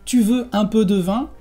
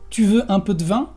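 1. La e de 'de' se pronuncia completamente. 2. La e de 'de' se omite, y queda 'dvin'. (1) "En lugar de decir" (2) "Vamos a decir, ... de vin se hace dvin"

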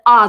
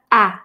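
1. Гласный глубокий и находится далеко назад. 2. Гласный светлый и находится далеко вперёд. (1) "Русскоязычное «а» далеко" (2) "французское близко"

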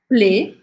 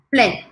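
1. A vogal é falada mais fechada. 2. A vogal é falada mais aberta. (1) "Ou você pode falar plé, assim" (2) "mais aberto"

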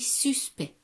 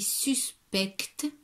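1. Le C et le T finaux sont muets. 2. Le C et le T finaux sont prononcés. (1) "mais ça se lit suspect. On ne prononce pas le C et le T" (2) "ça s'écrit suspect"

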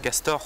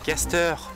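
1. Il se prononce comme le mot français castor. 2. Il se prononce comme le mot anglais caster. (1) "pas castor" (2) "Castor, pas castor"

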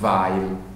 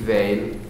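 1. Il cognome si pronuncia alla tedesca. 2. Il cognome si pronuncia alla francese. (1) "e non Weil" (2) "chiamarla con una pronuncia francese, quindi Weil"

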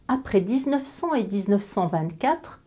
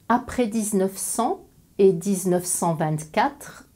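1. Elle est prononcée à un rythme normal, plus rapide. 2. Elle est prononcée à un rythme nettement plus lent.

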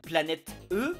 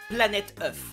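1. Le dernier mot finit par une voyelle nue, sans liaison. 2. Le dernier mot se termine par un son f. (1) "c'est au pluriel" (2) "Mais attends, mais c'est au pluriel"

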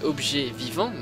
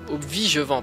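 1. Les deux mots sont prononcés séparément et clairement. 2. Les deux mots sont fusionnés en un seul mot mal articulé. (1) "il faut savoir que c'est objet vivant" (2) "ça se prononce pas obvigevant, comme tout le monde le dit"

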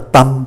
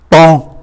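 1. Từ "temps" kết thúc bằng âm m đóng. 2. Từ "temps" kết thúc bằng nguyên âm mũi mở. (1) "Nhiều người cũng còn phát âm không có chuẩn đó, đọc là tâm" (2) "M đứng trước P thì phát âm là N"

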